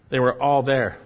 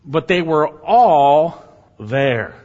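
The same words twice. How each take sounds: First: Said in the usual way. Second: "all" loud and long drawn out; slow proclamation, leaning hard on "all"; stress on all. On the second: Real, not acted. Preacher marvelling that no prisoner fled, "all" stretched and loud. Emphatic point, then repeated calmly.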